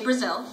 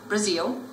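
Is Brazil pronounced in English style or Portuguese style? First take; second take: English; Portuguese. First: It is pronounced the English way. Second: It is pronounced the Portuguese way. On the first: The speaker calls it wrong. "make sure you don't say Brazil" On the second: The speaker calls it right. "say Brazil"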